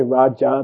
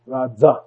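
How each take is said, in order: First: Raja said with an English J; hard J in raja; wrong raja with J. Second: Raja said as radza; correct raja with dz. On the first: Teacher showing scholars' error, raja with a J. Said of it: "They don't say Raja". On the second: Teacher showing the correct Sanskrit, raja with dz. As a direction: buzz the J of raja into dz. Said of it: "they say Raza". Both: Shown as a demonstration.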